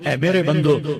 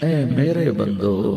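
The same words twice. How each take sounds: First: It is said flatly, without warmth. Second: It is said tenderly, with warm affection. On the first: The speaker calls it wrong. "इस लहजे में नहीं" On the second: The speaker calls it right. "क्या मिठास है"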